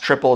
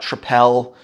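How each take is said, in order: First: It sounds like the English word 'triple'. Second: It does not sound like English 'triple'. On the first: The speaker calls it right. "It's pronounced triple" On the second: The speaker calls it wrong. "it's not tripel"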